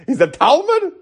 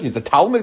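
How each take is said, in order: First: Incredulous question. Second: Said in the usual way. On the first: Shown as a demonstration. Rabbi mocking calling a sage a student, incredulous high "Talmud?". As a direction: scoff at the word "Talmud" as absurd. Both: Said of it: "what are you talking about?".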